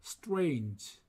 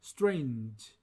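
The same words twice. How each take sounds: The two takes are said the same way.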